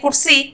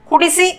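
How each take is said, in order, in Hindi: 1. एक स्वर छूट जाता है, जिससे शब्द छोटा हो जाता है। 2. हर स्वर पूरा बोला जाता है।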